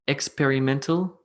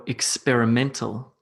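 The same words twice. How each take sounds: First: EX-perimental, question rise; "Experimental" wrongly weighted at the front; first-syllable stress. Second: Ex-peri-MEN-tal; weight on MEN in "experimental"; "experimental" with a light start and strong MEN; stress on MEN. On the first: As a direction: punch the EX of "Experimental". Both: Shown as a demonstration. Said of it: "Where should I put emphasis".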